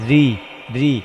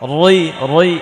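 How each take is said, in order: First: The r is light and thin. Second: The r is heavy and thick. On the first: The speaker calls it right. "রটা পাতলা করে পড়তে হবে" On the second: The speaker calls it wrong. "এমন এমন না"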